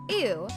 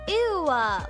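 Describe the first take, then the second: First: The word ends plainly with no added vowel. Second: The word ends with an added 'o' sound. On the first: "Instead of ew" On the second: "with an O at the end"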